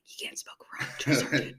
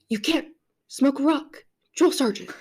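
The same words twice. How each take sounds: First: It is spoken in a whisper. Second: It is spoken in a normal voice.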